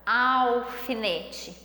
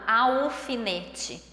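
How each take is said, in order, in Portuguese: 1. A primeira sílaba termina com um som de L bem claro. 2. A primeira sílaba termina com um som de vogal parecido com U. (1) "eu coloco a língua lá no céu da boca" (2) "eu não falo alfinete"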